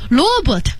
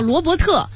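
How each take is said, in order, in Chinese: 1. 这个名字是按英文发音的。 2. 这个名字是用中文音节读的。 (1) "那如果真在译制片里面不能是Robert 对吧？" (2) "你甚至可以叫就叫罗伯特"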